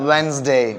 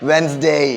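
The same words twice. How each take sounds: The two takes are said the same way.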